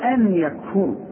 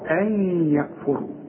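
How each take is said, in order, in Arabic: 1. يُنطق صوت النون بوضوح باستعمال اللسان. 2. يندمج صوت النون مع الياء التي بعده. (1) "ما تقولش" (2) "ما استعملناش لساننا في النون ديت علشان دي نون ساكنة بدون تشكيل بتضغم"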